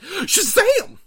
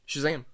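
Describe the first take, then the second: First: The word is shouted loudly and excitedly. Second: The word is said flatly, at normal volume. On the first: The speaker calls it right. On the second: The speaker calls it wrong.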